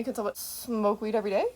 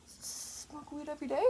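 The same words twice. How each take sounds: First: Said in the usual way. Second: Hushed, higher-pitched questioning; furtive. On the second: Pretend. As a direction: sneak it out very softly, pitched up. Furtive repeat, "they didn't see.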